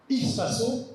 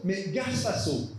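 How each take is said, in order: First: Ispaso dit clairement, is-pa-so, plus haut; prononciation correcte. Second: Gaspaso dit un peu lentement, ga-spa-so; forme fautive. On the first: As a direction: prononcer Ispaso avec soin, comme la bonne forme. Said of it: "il n'y a pas marqué". (Ispaso, la forme juste, bien détachée) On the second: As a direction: lire Gaspaso comme l'erreur du tatouage. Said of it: "une faute d'orthographe". (Gaspaso, la faute, lu posément) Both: Shown as a demonstration.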